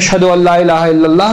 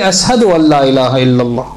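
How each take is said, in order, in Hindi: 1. Ashhadu को 'sh' ध्वनि के साथ बोला जाता है। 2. Ashhadu को 's' ध्वनि के साथ बोला जाता है।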